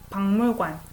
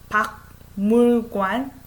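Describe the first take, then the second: First: The syllables run together smoothly as one word. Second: Each syllable is said separately, one at a time. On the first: "if you combine them together, it comes out naturally" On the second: "like one syllable at a time"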